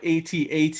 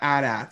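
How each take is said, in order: First: It is spelled out letter by letter. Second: It is said as a single word. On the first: The speaker calls it right. "I would call it AT-AT" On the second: The speaker calls it wrong. "and not AT-AT"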